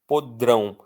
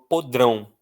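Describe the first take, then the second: First: The stress is on the last syllable. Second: The stress is on the last syllable.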